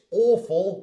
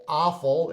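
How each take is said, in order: First: British AWFUL with rounded "aw"; British accent. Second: American AWFUL with open "ah"; American accent. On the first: Teacher recapping for learners, British accent. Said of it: "awful or awful in an American accent". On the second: Teacher recapping for learners, American accent. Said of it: "in an American accent". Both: Shown as a demonstration.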